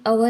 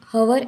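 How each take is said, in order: First: It begins directly with the vowel. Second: It begins with a clear h sound. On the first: The speaker calls it right. "उसका pronunciation अवर ऐसे हो जाता है" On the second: The speaker calls it wrong. "ऐसे नहीं कहते"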